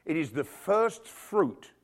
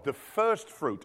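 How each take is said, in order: First: Slow, weighty first fruit; slowed, deliberate emphasis. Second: Slow, weighty repeat of first fruit; slowed emphatic repeat. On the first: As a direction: lean on each word to make it sink in. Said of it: "slowed emphasis". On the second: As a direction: drive it home slowly. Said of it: "slowed repeat". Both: Shown as a demonstration.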